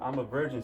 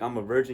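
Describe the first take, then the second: First: It is said in a sad, deflated tone. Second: It is said in a proud, confident tone.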